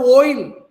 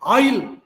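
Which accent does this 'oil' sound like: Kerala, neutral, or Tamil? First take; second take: Kerala; Tamil. First: The word is said with a strongly pronounced O. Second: The word is said with a Tamil-style vowel. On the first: "for them it is O is very pronounced" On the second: "normally we Tamils are very famous for oil"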